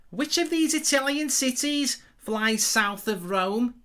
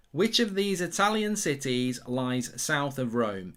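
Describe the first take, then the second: First: Exaggerated Liverpool Scouse accent, slow and higher; slow Scouse quiz-host voice. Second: Said in the usual way. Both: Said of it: "I'll say it again".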